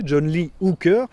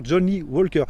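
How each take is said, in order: First: HOOKER said slowly and clearly, with an "oo" vowel; slow, deliberate "John Lee Hooker", stressing HOOKER; careful name repetition. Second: WALKER said with an open "wol" in place of "hoo"; assistant's misheard name. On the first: Shown as a demonstration. User repeating the name to the voice assistant, slow careful [name]. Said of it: "vous recommencez". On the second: Retold or imitated. Voice assistant getting the musician's name wrong, [name] with "wol". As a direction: imitate the wrong name, "John Lee Walker". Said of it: "elle va comprendre encore".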